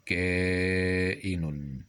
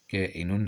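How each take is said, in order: First: Very slow, stretched كائن; sounded out. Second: Said in the usual way. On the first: Shown as a demonstration. Teacher pointing out the misspelt word, كائن greatly drawn out. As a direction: hold the first syllable of كائن long.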